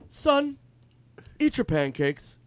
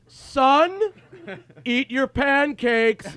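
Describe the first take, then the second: First: It is said at a normal, quieter volume. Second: It is said in a louder voice.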